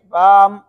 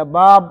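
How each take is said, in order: First: با ending with closed lips, sounding like بام; wrong closing lips. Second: با closing into a second b, sounding like باب; wrong extra baa. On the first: Teacher to children: wrong با that turns into بام. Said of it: "میم بن گیا". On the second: Teacher to children: wrong با that turns into باب. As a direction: snap the lips shut after با into a b. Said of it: "ایک اور با بن گیا". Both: Shown as a demonstration.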